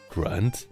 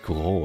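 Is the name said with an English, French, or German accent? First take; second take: English; French. First: The name is said with an English accent. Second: The name is said with a French accent. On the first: "Or like in English it would be grand" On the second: "Like in French it would be grand"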